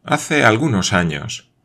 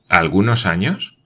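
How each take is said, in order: First: Said in the usual way. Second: Questioning echo, rising on años; años lifted as a question; doubtful echo. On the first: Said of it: "respondió Manuel". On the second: A narrator's reading. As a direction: throw the words back in doubt. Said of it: "replicó Glenarvan".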